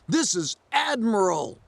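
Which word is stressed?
Admiral. Admiral is strongly stressed.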